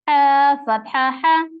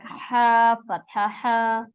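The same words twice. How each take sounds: First: The final vowel is kept short. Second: The final vowel is stretched out long. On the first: The speaker calls it right. "so make sure don't stretch them" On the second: The speaker calls it wrong. "When you stretch them like uh, like ha fatha ha, so it's become a long vowel"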